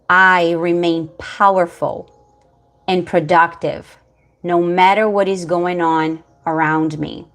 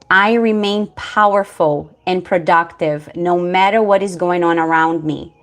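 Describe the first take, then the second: First: It is said slowly and deliberately. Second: It is said at a normal, quicker pace.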